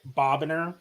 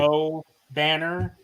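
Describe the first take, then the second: First: The name is run together as Bobbiner. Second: The name is said as Bo plus Banner. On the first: This is how the computer voice said it. The speaker calls it wrong. "the A I was gonna pronounce it Bobbiner" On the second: This is how the name was meant to be said. The speaker calls it right. "instead of"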